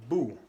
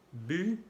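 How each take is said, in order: First: BU said as bout, back oo; French ou sound. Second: BU with rounded, fronted u, pitched up; French u sound. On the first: Teacher contrasting two vowels, back oo. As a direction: say BU like Spanish bu. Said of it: "y el sonido U". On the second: Teacher contrasting two vowels, fronted French u. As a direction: say BU as French u, tongue forward. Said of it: "los sonidos U". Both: Shown as a demonstration.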